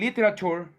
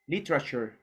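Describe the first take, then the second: First: Every vowel is pronounced fully and slowly. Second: The vowels are said fast, the middle one dropped. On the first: The speaker calls it wrong. "I don't say literature" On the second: The speaker calls it right. "I say literature, litra"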